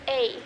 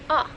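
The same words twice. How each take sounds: First: The vowel glides, closing toward another sound. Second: The vowel stays steady from start to end. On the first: This is the English way of saying the vowel. "when you say A, see how your mouth kind of closes at the end" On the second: This is the Hawaiian way of saying the vowel. "if you're pronouncing it in Hawaiian, which is A"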